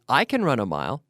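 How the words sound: The stress falls on the word I. It is me, not someone else, who can. The speaker calls it right. "The stress is on the subject"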